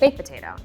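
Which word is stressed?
baked. The emphasis falls on the word baked. The speaker calls it wrong. "stop putting emphasis on baked"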